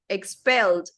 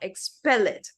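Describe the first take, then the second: First: The ending is a plain d sound. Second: The ending adds an extra id syllable. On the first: The speaker calls it right. "Expelled, not" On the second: The speaker calls it wrong. "not expel it"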